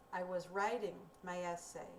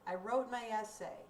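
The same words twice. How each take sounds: First: "I was writing my essay." left hanging, as if more follows; teacher shows there's more to add; unfinished-sounding tune. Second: "I wrote my essay." said with a firm, closed fall; teacher shows the story is over; finished-sounding tune. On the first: Teacher to students: open, hanging tune. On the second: Teacher to students: closed, finished tune. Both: Shown as a demonstration. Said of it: "Did you hear a difference in my intonation".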